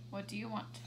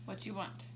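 The two takes are said the same way.

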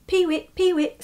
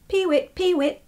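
First: High bird call "peewit", lightly voiced; a hint of a lapwing calling; lapwing cry. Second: High, sung bird call "peewit"; lapwing cry. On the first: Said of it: "said the bird". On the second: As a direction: chirp it like a lapwing. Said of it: "it sang". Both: A narrator's reading.

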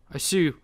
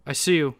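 Both takes have the same delivery.

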